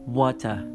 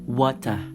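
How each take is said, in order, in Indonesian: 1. Aksen Inggris: r lemah, t jelas. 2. Aksen Inggris: r lemah, t jelas.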